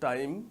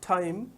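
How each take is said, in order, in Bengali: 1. এটি বাংলা ধাঁচের উচ্চারণে বলা হয়েছে। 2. এটি নেটিভ ইংরেজির উচ্চারণে বলা হয়েছে। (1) "আমরা বলি" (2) "বিদেশিদের মুখে এই উচ্চারণগুলো শুনবো"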